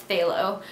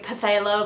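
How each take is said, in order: First: It begins directly with a 'tha' sound. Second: It begins with an extra 'pa' syllable. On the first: The speaker calls it right. "I know it's phthalo" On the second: The speaker calls it wrong. "I know that's not how you say it"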